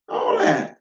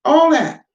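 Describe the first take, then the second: First: Mocking falsetto. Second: Said in the usual way. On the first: Shown as a demonstration. Mocking echo of own phrase.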